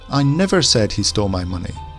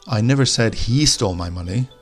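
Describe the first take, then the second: First: The stress falls on the word never. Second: The stress falls on the word he. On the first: It denies ever having said it. "Now let's put the emphasis on the never" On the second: Someone stole it, but not necessarily him. "the emphasis on he"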